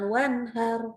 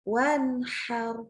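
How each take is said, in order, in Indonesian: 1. H-nya bunyi yang ringan dan berdesah. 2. H-nya bunyi yang kuat dari tenggorokan.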